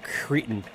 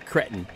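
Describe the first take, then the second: First: The word has an American pronunciation. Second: The word has an English pronunciation.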